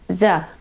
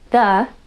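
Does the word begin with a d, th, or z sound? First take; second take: z; th. First: It begins with a z sound. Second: It begins with a voiced th sound. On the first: The speaker calls it wrong. "or the" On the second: The speaker calls it right. "instead of saying the"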